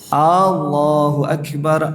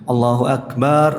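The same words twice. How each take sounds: First: The first vowel of Allah is drawn out. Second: The vowel after b in akbar is drawn out. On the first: The phrase becomes a question. "memanjangkan a pada Allah" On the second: The word means drums instead of greatest. "seperti mengucapkan akbar, baknya panjang"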